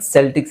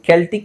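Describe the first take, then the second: First: The word begins with an s sound. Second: The word begins with a k sound. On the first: "ಎರಡು ತರನು ಹೇಳ್ತಾರೆ" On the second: "ಎರಡು ತರನು ಹೇಳ್ತಾರೆ"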